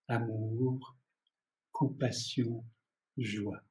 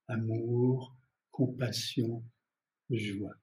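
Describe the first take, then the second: The two takes are said the same way.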